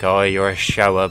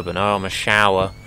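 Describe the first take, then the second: First: Shower said /ʃoʊə/, rhyming with grower; shower as in shows off. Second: Shower said /ʃaʊə/, rhyming with flower; shower as in bathing. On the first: Imagined listeners mishearing the word, shower as one who shows. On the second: Correcting imagined listeners, shower as in bathing. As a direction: correct them, say shower like the bathroom shower, rhyming with power. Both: Shown as a demonstration. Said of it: "So I could say I'm a shower".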